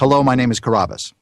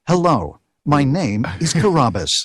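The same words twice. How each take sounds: First: It is said in a plain everyday voice. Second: It is said as the Ancient Aliens narrator.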